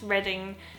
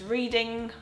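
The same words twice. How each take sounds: First: It sounds different from the verb 'reading'. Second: It sounds like the verb 'reading'. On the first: The speaker calls it right. "I found out it's reading" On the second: The speaker calls it wrong. "I was convinced it was reading"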